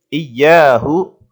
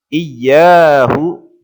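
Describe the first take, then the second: No difference in how they are said.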